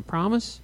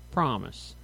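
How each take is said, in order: First: "promise" lifting higher as a question; questioning rise. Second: "Promise" low and softer, falling; agreeing fall. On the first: Rita seeking her sister's word, "promise" rising as a question. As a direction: ask "promise" with the pitch climbing at the end. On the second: Twin agreeing not to push, "Promise" low and falling. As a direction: answer "Promise" with a low, settled drop in pitch. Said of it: "Catherine agreed". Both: A narrator's reading.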